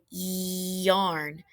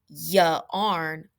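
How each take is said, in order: First: The word is said as one smooth syllable. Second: The word is split with an extra vowel. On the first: The speaker calls it right. "We say yarn" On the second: The speaker calls it wrong. "we don't say ya arn"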